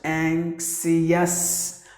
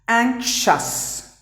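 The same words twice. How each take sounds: First: The ending sounds extra vowels before the final s. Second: The ending has no separate vowel sounds. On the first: The speaker calls it wrong. "people tend to pronounce the word as anxious" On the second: The speaker calls it right. "The letter I and the letter O are silent"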